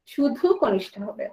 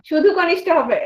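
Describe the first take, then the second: First: Slow, softer শুধু কনিষ্ঠ হবে with weight on শুধু; emphatic repeat. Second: Said in the usual way. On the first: Shown as a demonstration. Teacher repeats the answer to the student, slower and softer, stressing শুধু. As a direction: press on শুধু and let শুধু কনিষ্ঠ হবে sink in slowly. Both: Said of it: "কনিষ্ঠতম না কনিষ্ঠতর?".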